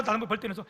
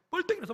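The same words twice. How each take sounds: First: Said in the usual way. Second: 벌떡 jumps high and falls sharply; stress on 벌떡. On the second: Shown as a demonstration. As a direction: punch 벌떡 as if springing up. (벌떡을 높게 힘주어 강조)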